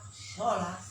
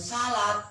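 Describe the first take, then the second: First: The s is heavy, with a darker o-like vowel. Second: The s is light, with a plain a vowel. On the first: It means drawing close to God. The speaker calls it right. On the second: It means a basket. The speaker calls it wrong. "Lain salat"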